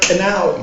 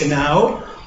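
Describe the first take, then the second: First: The word starts with a K sound. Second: The word starts without a K sound. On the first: The speaker calls it right. "That's why we I pronounce the word canal" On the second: The speaker calls it wrong. "the K that they say is silent in English"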